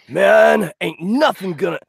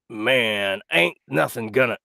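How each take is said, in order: First: It is in the tattooed man's put-on voice. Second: It is not in the tattooed man's put-on voice.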